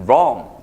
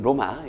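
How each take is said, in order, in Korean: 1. 영어식으로 발음해요. 한 음절이에요. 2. 한국식으로 발음해요. 두 음절이에요. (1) "영어식 발음은" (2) "우리끼리 발음은"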